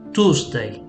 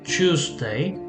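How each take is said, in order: First: A plain t with no y sound follows. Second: The t and y blend into a ch sound. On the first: "in American English ... they're just gonna drop the, the E sound and it becomes Tuesday" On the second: "in R P we we assimilate the sound or we kind of blend the, the sounds together"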